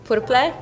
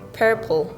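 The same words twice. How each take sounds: First: The r is strongly rolled. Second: The r is soft, American-like. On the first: The speaker is a beginner learner. "the beginner would say" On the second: The speaker is an advanced learner. "a little bit like advanced would say ... More like American version of it"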